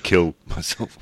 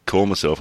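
First: "kill myself", with a short i in "kill"; slip to KILL. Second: "call myself", with an open aw vowel in "call"; intended CALL. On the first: Podcaster repeating his slip, "kill" with short i. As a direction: say "kill" where "call" was meant. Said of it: "and I said kill myself". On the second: Podcaster correcting his own slip, "call" said with aw. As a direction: say "call" clearly with an aw sound. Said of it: "I went to say call myself". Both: Shown as a demonstration.

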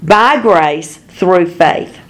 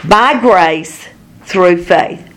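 First: Slow and weighted again, by grace through faith; slow emphasis. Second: Each word slow and weighted, by grace through faith; slow emphasis. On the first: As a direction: drive the doctrine home slowly. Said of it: "You are healed". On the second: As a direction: lay it down slowly, word by word. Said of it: "You are baptized in the Holy Spirit". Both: Shown as a demonstration.

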